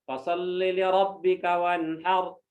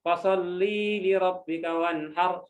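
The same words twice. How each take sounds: First: The vowel in 'li' is kept short. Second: The vowel in 'li' is drawn out long.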